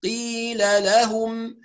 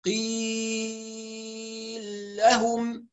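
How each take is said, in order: First: Slow "قيل لهم" with a breathless q and both laams voweled; clear separate words. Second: "قيل لهم" with a very long ee into one doubled "ل"; merged laams. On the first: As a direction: recite "قيل لهم" in measured syllables. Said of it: "نحبس الهواء لأن القاف مجهورة". ("قيل لهم" بتمهّل وقاف بلا نفس) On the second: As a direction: stretch "قيل" at length, then fuse it into "لهم". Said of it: "يقرأ بالإدغام مثل الإمام السوسي". ("قيل لهم" بالإدغام والمد الطويل) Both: Shown as a demonstration.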